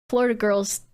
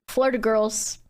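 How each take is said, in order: The two takes are said the same way.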